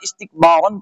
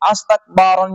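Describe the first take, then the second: First: The word begins with an 'i' vowel. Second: The word begins with a vowel other than 'i'. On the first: The speaker calls it right. "یہ جو زیر ہے یہ الف کے نیچے آئے گی" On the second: The speaker calls it wrong. "نہیں پڑھا جائے گا"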